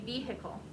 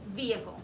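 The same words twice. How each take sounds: First: The middle H is clearly pronounced. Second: The middle H is not pronounced. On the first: This is how some Southern speakers say it. "you might hear somebody in the South say vehicle" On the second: This is how most people say it. "most people will say it vehicle. It'll be a silent H"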